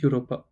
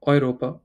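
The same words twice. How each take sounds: First: Europa begun with "you", as the mistake; wrong Europa demonstrated. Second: Put-on Europa begun with oi as in boy; correct German Europa. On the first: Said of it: "not Europa". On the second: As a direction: model Europa as "oy-RO-pa". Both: Shown as a demonstration.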